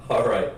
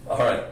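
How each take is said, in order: Both takes have the same delivery.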